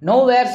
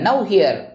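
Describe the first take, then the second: First: It is run together as one word. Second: It is split into two separate words. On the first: God is not anywhere. The speaker calls it wrong. "Nowhere சொல்லாத" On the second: God is present right here. The speaker calls it right.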